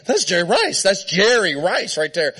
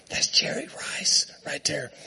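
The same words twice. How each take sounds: First: Retold giddy fan, slightly raised; starstruck excitement. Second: Hushed retold whisper, very soft; starstruck whisper. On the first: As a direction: imitate a fan losing it. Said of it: "I'm losing it". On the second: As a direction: lean in and whisper it secretly. Leans over to tell seatmate.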